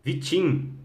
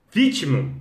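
First: "Vitim" as vi-CHIN, ending nasal without an o; corrected name reading. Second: "Vítimo" stressed on the first syllable, with a final o; mistaken name reading. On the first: Host tries a viewer's name again, "Vitim" said vi-CHIN. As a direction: try "Vitim", stressing the last syllable. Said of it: "É assim que fala". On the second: Host misreads a viewer's name, "Vítimo" stressed up front. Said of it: "Como é que fala esse nome?". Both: Real, not acted.

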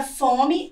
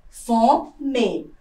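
First: Said in the usual way. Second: Fome split, FO, short pause, full ME; stress on first syllable. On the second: Shown as a demonstration. Teacher shows a paroxytone, Fome broken after stressed FO. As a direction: separate Fome, leaning on FO. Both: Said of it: "é uma palavra paroxítona".

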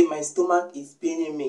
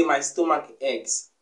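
First: Said in the usual way. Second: My stomach aches, said slowly and carefully; teacher modelling the correct form slowly; slow model sentence. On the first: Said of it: "Don't say". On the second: Shown as a demonstration. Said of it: "You say".

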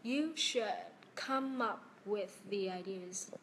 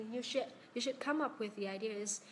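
First: "You should ... come up with the ideas", slowly with a pause after "should"; slow teacher's repeat of "You should come up with the ideas", lower towards the end; slow careful reading. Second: "you should come up with the ideas" in one linked run; flowing model of "you should come up with the ideas"; connected reading. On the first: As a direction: slowly model each link in "come up with the ideas". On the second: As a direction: read "you should come up with the ideas" at normal speed, words joined. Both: Shown as a demonstration. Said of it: "Cô đọc lại câu cuối đi ạ".

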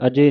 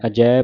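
First: ਅਜੇ ending in a closed e sound. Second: ਅਜੈ ending in an open ai sound. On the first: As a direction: say ਅਜੇ as a-je, not a-jai. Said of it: "ਅਜੇ ਨਹੀਂ ਪੜ੍ਹਨਾ". (ਅਜੇ ਨੂੰ ਲਾਂ ਦੀ ਆਵਾਜ਼ ਨਾਲ ਕਹਿਣਾ) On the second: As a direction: say ਅਜੈ as a-jai, not a-je. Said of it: "ਅਜੈ ਪਾਠ ਕਰਨਾ". (ਅਜੈ ਨੂੰ ਦੁਲਾਵਾਂ ਨਾਲ ਪੜ੍ਹਨਾ) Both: Shown as a demonstration.

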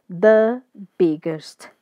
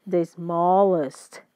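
First: The biggest, slow and louder; slow model phrase. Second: The smallest said slowly; slow model phrase. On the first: Teacher writing and reading the phrase slowly, loud. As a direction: stretch The biggest out for the class. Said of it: "Vou até colocar ele em letra maiúscula". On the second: Teacher reading the new form slowly to learners. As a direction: draw The smallest out for students. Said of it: "eu vou colocar S T". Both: Shown as a demonstration.

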